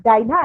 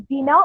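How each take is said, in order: First: "Dinah" said with a long I, DIE-nah; pronounced DIE-nah. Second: "Dina" said with an EE sound, DEE-nah; pronounced DEE-nah. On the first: Lecturer offers the other reading, "Dinah" as DIE-nah. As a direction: say "Dinah" to rhyme with China. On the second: Lecturer offers the cat's name, "Dina" as DEE-nah. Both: Shown as a demonstration. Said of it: "as you pronounce it".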